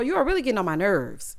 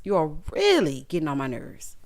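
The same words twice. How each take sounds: First: Said in the usual way. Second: "really" leaned on, lower and firmer; exasperated lower echo; lower emphatic repeat. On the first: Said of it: "repeats line with emphasis". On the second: Shown as a demonstration. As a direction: drop the voice and press "really". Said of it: "repeats line lower".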